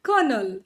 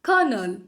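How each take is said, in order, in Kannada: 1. ಇದನ್ನ kernel ಅಂತ ಹೇಳ್ತಾರೆ, ಎರಡು ಉಚ್ಚಾರಾಂಶ. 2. ಇದನ್ನ kernel ಅಂತ ಹೇಳ್ತಾರೆ, ಎರಡು ಉಚ್ಚಾರಾಂಶ.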